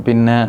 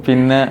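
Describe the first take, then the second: The two takes are said the same way.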